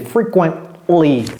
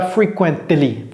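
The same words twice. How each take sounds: First: The T sound before the ending is swallowed. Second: The T sound before the ending is pronounced. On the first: The speaker calls it right. "avaler le T, ça devient frequently" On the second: The speaker calls it wrong. "Ne dites pas frequently"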